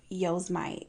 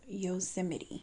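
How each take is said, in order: First: The name ends in a sound like 'mite'. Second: The name ends in a sound like 'mitty'. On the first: The speaker calls it wrong. "I used to pronounce Yosemite Yosemite" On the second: The speaker calls it right. "I've been saying it wrong"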